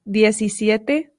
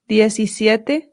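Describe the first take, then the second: The two takes are said the same way.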